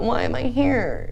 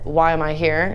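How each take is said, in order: First: It is asked in a whiny, self-pitying tone. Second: It is asked in a calm, matter-of-fact tone. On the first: The speaker feels like a victim of circumstances. The speaker calls it wrong. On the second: It is a practical question about the situation. The speaker calls it right. "That's a practical, logical statement"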